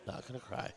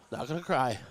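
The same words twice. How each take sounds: First: Much softer, nearly breaking; barely audible, swallowing tears; choked-up murmur. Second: Steadying a tearful voice; telling yourself not to cry; holding back tears. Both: Real, not acted.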